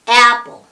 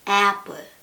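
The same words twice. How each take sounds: First: The vowel is pushed out with strong breath support. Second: The vowel is weak, without breath support. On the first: The speaker calls it right. "배에 흥 하고 움직여줍니다" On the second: The speaker calls it wrong. "배에 소리를 안 내주시면"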